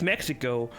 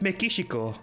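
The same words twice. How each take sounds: First: The name is said with English pronunciation. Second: The name is said with Japanese pronunciation. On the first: "in English it's Mexico" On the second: "in Japanese it's Mexico"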